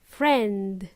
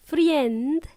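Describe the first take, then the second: First: "friend" as one syllable, frend; correct friend. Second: "friend" said slowly as fri-END, with an added ee sound; mispronounced friend. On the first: Teacher correcting learners, friend as frend. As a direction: lower "friend" with a short e, no ee. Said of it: "it's friend". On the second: Teacher showing learners the mistake, friend as free-end. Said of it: "It's not friend". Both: Shown as a demonstration.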